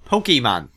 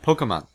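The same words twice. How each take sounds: First: The syllables are carefully separated and enunciated. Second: The syllables are run smoothly together. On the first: The speaker calls it wrong. "you pronounce it Pokemon" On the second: The speaker calls it right. "not Pokemon"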